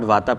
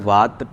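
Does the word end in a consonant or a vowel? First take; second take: vowel; consonant. First: The word ends with a final vowel. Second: The word ends on the consonant t. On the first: The speaker calls it wrong. "Not Vata" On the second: The speaker calls it right. "the words are Vat"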